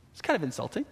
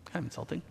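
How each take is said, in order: First: Said in the usual way. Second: Quiet aside. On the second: Real, not acted. Pastor repeating his remark about Shimei, as a soft aside. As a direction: drop much softer, half to himself.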